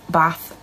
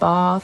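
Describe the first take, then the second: First: It is said in a northern English accent. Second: It is said in a southern English accent. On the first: "I'm very, very much northern" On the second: "My friends are southern, they say"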